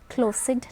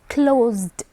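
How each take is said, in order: First: The ending is an extra 'id' syllable. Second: The ending is a plain 'd' sound. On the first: The speaker calls it wrong. "So it's not id" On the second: The speaker calls it right. "It's closed"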